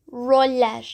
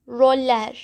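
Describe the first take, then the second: No difference in how they are said.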